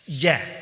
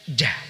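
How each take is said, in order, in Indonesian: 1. Napas ditahan tanpa hembusan. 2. Ada hembusan napas yang kuat setelah konsonan. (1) "Nafas atau udara tertahan, tidak mengalir deras keluar" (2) "Jangan sampai keluar apa nafas deras ya"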